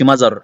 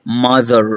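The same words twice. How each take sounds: First: "mother" said "mazar", a z in place of the th; the mistake, z for th in "mother"; wrong z. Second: The th said through the teeth in "mother"; correct th. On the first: Teacher showing the wrong way to say mother. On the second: Teacher showing the right way to say mother. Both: Shown as a demonstration. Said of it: "ما تقولش mother".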